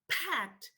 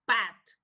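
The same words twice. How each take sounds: First: The p is said with a puff of air. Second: The p is said without a puff of air. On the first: The speaker calls it right. "We say pat, with this sound" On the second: The speaker calls it wrong. "we don't say pat, because that doesn't sound right"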